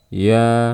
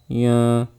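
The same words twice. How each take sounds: First: The sound comes out through the mouth. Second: The sound comes out through the nose. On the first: The speaker calls it right. "keluarkan lewat mulut" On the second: The speaker calls it wrong. "suaranya ngirung"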